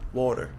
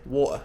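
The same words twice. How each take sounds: First: The middle T sounds like a soft D. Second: The middle T is dropped entirely. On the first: "like a very soft D" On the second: "very casually, British people might drop the T altogether"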